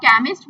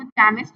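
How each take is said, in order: First: Said in the usual way. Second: "केमिस्ट" misread with ch as in chair; wrong CH reading. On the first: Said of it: "अब आप केमिस्ट बोलेंगे". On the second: Shown as a demonstration. Teacher showing how not to read it, "केमिस्ट" with a ch start. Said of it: "इसको केमिस्ट तो नहीं पढ़ेंगे".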